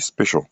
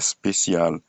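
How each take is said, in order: First: The middle consonant is an sh sound. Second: The middle consonant is an s sound. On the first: The speaker calls it right. "mais on dit special" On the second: The speaker calls it wrong. "on ne dit pas spécial"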